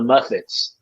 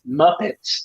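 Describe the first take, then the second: First: The middle consonant is an f sound. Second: The middle consonant is a p sound. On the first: This is how a small child says it. "He calls them the Muffets" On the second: This is the usual name. "Wyatt didn't call them the Muppets"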